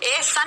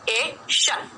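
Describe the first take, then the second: First: The ending is said with an 's' sound. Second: The ending is said with an 'sh' sound. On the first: The speaker calls it wrong. "ए सन नहीं" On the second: The speaker calls it right. "यहाँ पर श है स नहीं"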